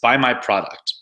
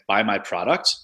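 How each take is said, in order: First: The pitch falls at the end. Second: The pitch rises at the end. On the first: It is a command. The speaker calls it right. "that commanding tone where it has a drop at the end" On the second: It sounds like a question. The speaker calls it wrong. "when you tone your voice up like that, it always sounds like a question"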